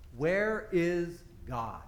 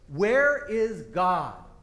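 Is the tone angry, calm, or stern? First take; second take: calm; stern. First: It is asked in a calm, plain tone. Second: It is asked in a firmer, sterner tone.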